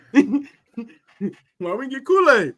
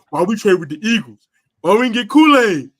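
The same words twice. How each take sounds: First: High, loud fan outrage; mad fan voice. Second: Louder, outraged fan complaining about the trade; a hint of an angry fan's rant; mad fan voice. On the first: Retold or imitated. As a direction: whine like a betrayed fan. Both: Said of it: "the mad fan voice".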